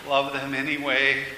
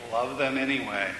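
First: Level, weary echo, understated; a touch of dejected moaning; mild moan. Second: Gentle repeated instruction, falling end; calm insistence. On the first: Man echoing God's hard command, mildly moaning. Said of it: "I moaned". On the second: God repeating the command to love, calmly. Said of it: "in that same calm voice". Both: A narrator's reading.

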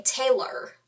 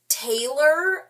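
First: Taylor with the Y sound missing, nearer "Teh-lor"; Y goes missing. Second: Taylor as other people say it, slow with a clear long "ay"; other people's pronunciation. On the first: Showing her own way of saying Taylor, Y dropped. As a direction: shorten the glide in Taylor, losing the Y. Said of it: "the Y apparently goes missing". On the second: Showing a friend how people say Taylor, drawn-out long A. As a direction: stretch the "Tay" in Taylor, clearly and slowly. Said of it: "I say Taylor". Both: Shown as a demonstration.

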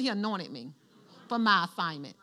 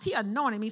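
First: Softer call and response. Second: Said in the usual way. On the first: Shown as a demonstration. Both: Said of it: "Somebody say".

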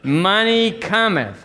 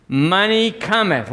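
First: Higher, slower, drawn-out declaration; high and slow, with more conviction; more emphatic call-and-response. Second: High, slow declaration for all to repeat; raised pitch, drawn out for joining in; leading a call-and-response. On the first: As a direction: say it better, stretching both words for the congregation. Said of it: "Let's do it better". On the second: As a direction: lead the congregation in saying it. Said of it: "Can y'all say it with me". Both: Shown as a demonstration.

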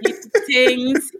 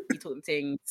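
First: Slow, playful put-on voice; silly voice. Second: Much softer, almost under breath; soft repeat. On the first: To her co-host, playful slow goofy voice. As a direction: hand it over in a goofy drawl. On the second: Real, not acted. To her co-host, softly under breath. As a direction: say it again softly.

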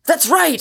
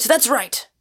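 First: High, loud roaring agreement; the hidden man roaring at Inglewood. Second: The hidden man roaring again, settling; lesser roar. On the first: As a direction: bellow it from the tree. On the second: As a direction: repeat it a notch down, still roaring. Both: A narrator's reading. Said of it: "came with a roar out of the rocking tree".

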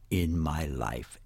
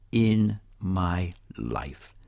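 First: Said in the usual way. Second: "In my life" very slow, word by word; emphatic repetition. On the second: Real, not acted. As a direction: stretch out each word of "In my life" with weight. Repeats phrase for emphasis.

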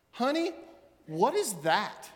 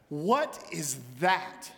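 First: Puzzled question. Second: Incredulous. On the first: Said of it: "his wife came out ... said". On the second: Wife staring at the dragon, slow and dismayed. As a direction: drag out the question in dismay. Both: Retold or imitated.

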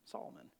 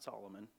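First: "Solomon" cut to two syllables, SAHL-mun; "Solomon" as SAHL-mun, dropped low and soft; Salmon pronunciation. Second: Said in the usual way. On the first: Shown as a demonstration. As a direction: say "Solomon" without its middle vowel. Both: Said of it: "not Solomon".

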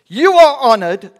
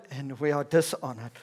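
First: Loud, high mock acclaim; sarcastic. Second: Dry, matter-of-fact drop; sarcastic. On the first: Paul mock-praising the people, loudly sarcastic. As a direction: hail them with exaggerated honour, voice soaring. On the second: Acted. Paul setting himself below his readers, dryly sarcastic. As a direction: let "dishonored" fall back to an ordinary level. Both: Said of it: "can be quite sarcastic with the people".

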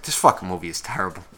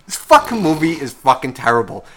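First: Low, soft, quick aside; dejected retold grumble. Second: "fucking" hit harder, back up in pitch and volume; emphatic repeat. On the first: Viewer sitting there after the horse disappears, dejected grumble. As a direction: drop down low and soft, fed up. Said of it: "I just sat there. I was just like". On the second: Retold or imitated. Viewer repeating the verdict on the movie, stressing "fucking". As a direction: punch each "fucking" with exasperation. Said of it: "I was just like".

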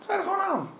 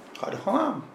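First: "je" lifted high and punched; "je" raised and stressed, quieter overall. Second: "gewoon" carries the weight, pitch level; soft, matter-of-fact "gewoon" stress. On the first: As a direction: hit the word "je", then let the rest fall. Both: Shown as a demonstration.

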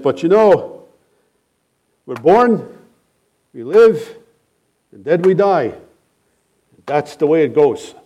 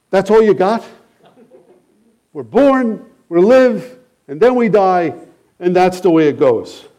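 First: Put-on light German accent on an old man's blunt words; lightly voiced German old man, matter-of-fact; mild German accent, shrugging it off; thick German accent. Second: Higher, mocking repeat of a hollow line; scoffing retort to the old man's words; incredulous echo. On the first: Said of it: "thick, uh, German accent". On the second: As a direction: echo it back in disbelief.

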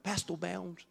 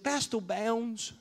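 First: Put-on "Pastor Bounds" again, r softened like a small boy; child saying "Pastor Bounds" with a weak r; says w for r. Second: Put-on "Pastor Bounds" with the r blurred, child-like; says w for r. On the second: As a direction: say "Pastor Bounds" without a clear r, slow. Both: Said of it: "he couldn't say his R's right".

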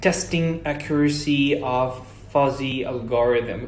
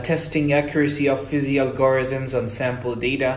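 First: Slow, effortful attempt at an English accent; tongue-tangled English accent. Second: Fluent reading in a practised English accent; present English accent. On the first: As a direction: imitate a learner labouring over an English accent. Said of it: "تحس إنه اللسان بيتلخبط شوية". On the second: Shown as a demonstration. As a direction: read it smoothly in American-style English. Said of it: "لهجتي الحين ما هي زي كذا".

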